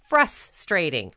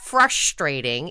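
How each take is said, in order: First: The s is pronounced as a plain s. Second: The s is pronounced as an sh sound. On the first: The speaker calls it right. "There's no H in there" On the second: The speaker calls it wrong. "people who are pronouncing the S sound like an SH sound"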